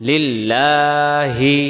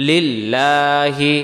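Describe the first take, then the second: No difference in how they are said.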